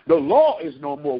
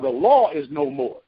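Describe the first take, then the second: First: Law is no more called out louder. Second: Said in the usual way. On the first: Shown as a demonstration. Preacher repeating the line higher for the congregation. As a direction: raise it, rising at the end.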